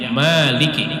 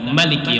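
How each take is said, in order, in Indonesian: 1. Vokal pertama dibaca panjang. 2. Vokal pertama dibaca pendek. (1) "membaca dengan panjang" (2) "membaca dengan handap"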